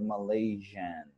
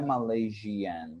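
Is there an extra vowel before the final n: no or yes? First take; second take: no; yes. First: No extra vowel is sounded before the n. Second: An extra ee vowel is sounded before the n. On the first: The speaker calls it right. "but the I is silent" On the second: The speaker calls it wrong. "Não é Malaysian"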